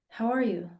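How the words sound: It is asked absently, as a casual formula.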